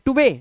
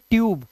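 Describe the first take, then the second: First: The final e is sounded as a second syllable. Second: The final e is silent, one syllable. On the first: The speaker calls it wrong. "टुबे नहीं" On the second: The speaker calls it right. "इसे पढ़ेंगे ट्यूब"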